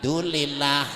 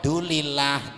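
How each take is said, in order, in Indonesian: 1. Hanya bagian akhir frasa yang diucapkan. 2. Hanya bagian akhir frasa yang diucapkan.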